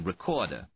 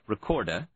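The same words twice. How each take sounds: First: Only the first R sound is pronounced. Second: The second R sound is also pronounced distinctly. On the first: The speaker is working class. "pronouncing only the first R" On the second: The speaker is college educated. "pronouncing the second R distinctly"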